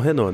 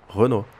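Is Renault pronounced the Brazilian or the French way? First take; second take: Brazilian; French. First: Renault is said with a Brazilian Portuguese pronunciation. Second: Renault is said with a French pronunciation. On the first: "lá eles não falam Renault" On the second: "Eles falam Renault"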